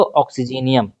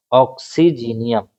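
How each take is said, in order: First: Said in the usual way. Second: "ऑक्सीजीनियम" slowly split into syllables; term broken down. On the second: Shown as a demonstration. Teacher repeating a ligand's name for students, slow and syllable by syllable. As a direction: sound out "ऑक्सीजीनियम" piece by piece, slowly.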